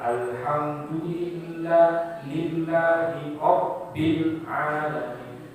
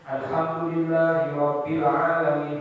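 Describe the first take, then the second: First: The doubled consonants are held long. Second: The doubled consonants are cut short. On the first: The speaker calls it right. "Ayat dua ada dua" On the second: The speaker calls it wrong. "Dua tasdidnya hilang semua"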